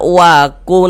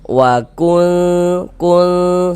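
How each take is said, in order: First: The n sound is pronounced clearly and distinctly. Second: The n sound is hidden and held nasalized. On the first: The speaker calls it wrong. "Jangan dibaca wakun berbunyi jelas begitu" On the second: The speaker calls it right. "tapi disamarkan. Wakul kul seperti itu"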